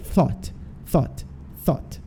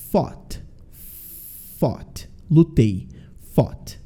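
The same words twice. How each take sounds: First: "thought" with the tongue between the teeth and a soft push of air; teacher blowing air softly through the TH of "thought"; TH sound demo. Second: "fought" starting with a lip-bitten F, not a TH; F sound demo. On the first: Teacher showing students how to say "thought" with tongue between teeth and a soft blown TH. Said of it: "dar uma assoprada". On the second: Teacher contrasting "fought" for students with a bitten-lip F. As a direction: bite the lower lip and say "fought" softly. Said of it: "thought é som de F". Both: Shown as a demonstration.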